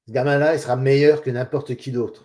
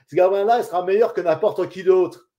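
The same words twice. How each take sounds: First: It is spoken in neutral standard pronunciation. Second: It is spoken with a strong regional accent. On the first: "en respectant les règles de diction, avec les bons sons" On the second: "C'est un accent du coin d'ici"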